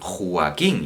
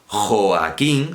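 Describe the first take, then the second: First: The o and a merge into one syllable. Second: The o and a form two separate syllables. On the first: The speaker calls it wrong. "lo convierten vulgarmente, es un vulgarismo" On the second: The speaker calls it right. "serán las sílabas jo, a, quín"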